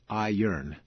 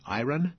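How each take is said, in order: First: The R comes after the vowel: i-ern. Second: The R comes before the vowel: i-ron. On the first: "Many people pronounce it iron. ... it is a flipping of the R and the O" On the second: "Do you pronounce it iron?"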